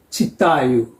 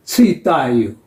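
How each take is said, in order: First: Читаю with a soft "chi" and a plain "ee" vowel; Russian pronunciation. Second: Читаю with a harder first vowel, close to "ty-TA-yu"; Ukrainian pronunciation. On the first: Teacher shows learners how Russians pronounce this letter, Russian pronunciation of читаю. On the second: Teacher contrasts it with the Russian, Ukrainian pronunciation of читаю. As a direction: say читаю the Ukrainian way, its и further back than "ee". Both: Shown as a demonstration. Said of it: "is pronounced E".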